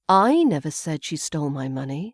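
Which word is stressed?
I. The stress falls on the word I. Someone else may have said it. "we put the emphasis on I"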